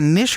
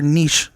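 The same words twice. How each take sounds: First: Niche said "nish"; short i in niche, ending in sh; short-i pronunciation. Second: Niche said "neesh"; long ee in niche, ending in sh; long-ee pronunciation. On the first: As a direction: say niche to rhyme with dish. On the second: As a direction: say niche to rhyme with leash. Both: Shown as a demonstration. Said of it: "Is it niche or niche?".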